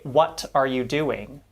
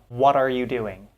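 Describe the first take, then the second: First: The T in 'what' is a full T. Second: The T in 'what' is a quick tap. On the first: The speaker calls it wrong. "We don't say" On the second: The speaker calls it right. "There's a little tap there"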